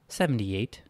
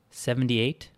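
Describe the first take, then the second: First: Said in the usual way. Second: Mildly surprised echoing question. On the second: A narrator's reading. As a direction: repeat SEVENTY-EIGHT as a surprised question.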